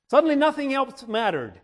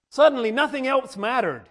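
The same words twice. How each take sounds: The two takes are said the same way.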